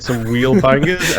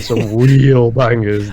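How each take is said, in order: First: Said in the usual way. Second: REAL stretched out and punched louder; "real" drawn out for ironic weight; ironic stress on REAL. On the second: Real, not acted. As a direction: lean hard and long on the word "real". Sincere first, then ironic repeat.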